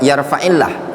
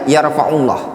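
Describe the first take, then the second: First: The vowel after yarfa' is an 'i' sound. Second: The vowel after yarfa' is a 'u' sound. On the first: The speaker calls it right. "Yang sebenarnya yarfa'illah" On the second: The speaker calls it wrong. "tapi dibaca yarfa'ullah"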